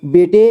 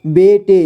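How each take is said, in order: First: Said in the usual way. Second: बेटे split as बे, टे; syllable by syllable. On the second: Shown as a demonstration. Teacher showing learners बेटे, sounded out in parts. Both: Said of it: "इसे पढ़ेंगे".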